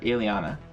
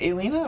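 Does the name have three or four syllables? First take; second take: four; three. First: The name is said with four syllables. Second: The name is said with three syllables. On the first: The speaker calls it right. "or Aliana? ... Second one" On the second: The speaker calls it wrong. "Is it Alina"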